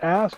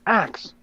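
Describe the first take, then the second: First: The word ends with an s then k sound. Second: The word ends with a k then s sound. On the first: This is the older way of saying it. "we don't say uh, ask anymore" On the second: This is how it is said today. "We say axe"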